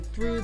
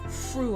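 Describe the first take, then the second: First: The word begins with a th sound. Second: The word begins with an f sound. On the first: "instead of saying through" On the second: "they say fru over there"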